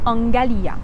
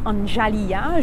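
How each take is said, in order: First: The middle consonant is a hard g sound. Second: The middle consonant is a soft j sound. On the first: The speaker calls it right. "ça se prononce exactement comme les mots garage et gâteau" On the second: The speaker calls it wrong. "il y a des gens qui disent Anjalia"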